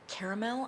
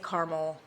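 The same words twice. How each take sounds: First: The middle A is pronounced, giving three syllables. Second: Midwest style, the middle A dropped: two syllables.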